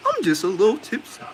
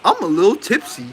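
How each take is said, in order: First: Tipsy woman voice. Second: Laughing through a higher tipsy voice; laughing tipsy quote. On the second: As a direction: giggle it like a tipsy woman. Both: Retold or imitated. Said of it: "the way she said it".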